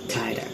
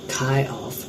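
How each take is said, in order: First: A sound is dropped, merging the words. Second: Every sound is pronounced in full. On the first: "After elision we pronounce it kinda" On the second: "the next word is kind of"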